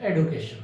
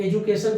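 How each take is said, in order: First: "एडुकेशन" with a d sound instead of j; newer pronunciation. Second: "एजुकेशन" with a j sound in the middle; older pronunciation. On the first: Teacher mimicking how people now say education, spoken plainly. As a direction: say "एडुकेशन" as ed-you-kay-shun. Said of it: "आजकल बोलते हैं". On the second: Teacher recalling the old way to say education, spoken plainly. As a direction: say "एजुकेशन" as edge-you-kay-shun. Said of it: "पहले जैसे आप बोलते थे". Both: Shown as a demonstration.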